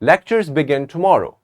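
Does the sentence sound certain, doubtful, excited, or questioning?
certain. It is said firmly, as a confident statement. The speaker knows it is true. "But when I'm sure, I would say"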